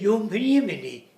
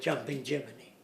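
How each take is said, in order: First: It is said with a Swedish accent. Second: It is said with a plain accent.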